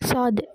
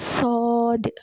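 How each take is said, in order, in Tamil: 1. முன்னிருந்து வருவதால் இலகுவாக ஒலிக்கிறது. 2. பின்னிருந்து மேலே தள்ளப்பட்டு கனமாக ஒலிக்கிறது. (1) "சும்மா முன்னாடியிலேருந்து வர மாதிரி" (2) "மேலேருந்து போதா"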